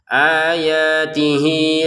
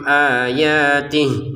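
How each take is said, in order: First: The final vowel is held long into the next word. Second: The final vowel is dropped and the word stops. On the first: The reading continues into the next word. "harus digabungkan kepada lam. Kalau ingin dipanjangkan dua harokat" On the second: The reader stops here to take a breath. "berhentinya di sini, maka ini dibacanya tidak panjang sama sekali"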